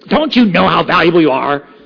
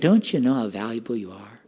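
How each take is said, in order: First: It is said in an angry, scolding tone. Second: It is said in a gentle, caring tone. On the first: The speaker is frustrated with the listener. "I'm so mad at you. Why don't you get it?" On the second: The speaker cares about the listener's worry. "You're worrying so much"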